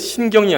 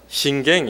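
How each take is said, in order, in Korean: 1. 둘째 음절은 표준 'yeo' 모음이에요. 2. 둘째 음절은 지역 'ae' 모음이에요. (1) "신경이 아니라" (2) "이 여 발음이 안 되거든요"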